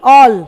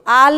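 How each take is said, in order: First: The vowel is a rounded 'aw' sound. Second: The vowel is an open, unrounded 'aa' sound. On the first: The speaker calls it right. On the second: The speaker calls it wrong. "आल नहीं"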